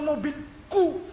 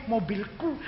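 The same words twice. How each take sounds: First: "mobilku" stretched very slowly, higher, with "ku" set apart; drawn-out ku. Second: "Mobilku" said softly with the "ku" brought out; stress on ku. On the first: Preacher mocking a proud owner's claim, "ku" drawn out. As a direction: hold back, then draw out the "ku" of "mobilku". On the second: Preacher acting a car owner answering, "ku" emphasised. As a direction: lean on the ending "ku" in "Mobilku". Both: Shown as a demonstration. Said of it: "jangan keras-keras kunya".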